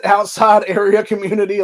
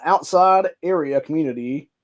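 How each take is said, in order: First: Louder, higher, laughing disbelief; amused, incredulous repeat; incredulous mocking. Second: Said in the usual way. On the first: Real, not acted. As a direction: scoff at the euphemism with a laugh. Mocks the euphemism he just read.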